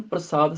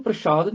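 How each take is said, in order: First: ਪ੍ਰਸਾਦ said with plain s, prasad. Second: ਪ੍ਰਸ਼ਾਦ said with sh, prashad. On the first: Teacher giving the correction, ਪ੍ਰਸਾਦ with s. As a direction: use an s sound in ਪ੍ਰਸਾਦ. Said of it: "ਸੱਸੇ ਦੇ ਨਾਲ ਬੋਲਣਾ". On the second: Teacher showing the mistake, ਪ੍ਰਸ਼ਾਦ with sh. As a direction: use a sh sound in ਪ੍ਰਸ਼ਾਦ. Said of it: "ਇਹਨੂੰ ਪ੍ਰਸ਼ਾਦ ਨਹੀਂ ਬੋਲਣਾ". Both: Shown as a demonstration.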